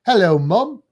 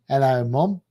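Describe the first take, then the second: First: Loud British-accented hello; British version for a side-by-side comparison. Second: Subtly Australian hello; Australian version for a side-by-side comparison; Australian accent. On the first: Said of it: "kind of the British version". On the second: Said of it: "that's my Australian". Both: Shown as a demonstration.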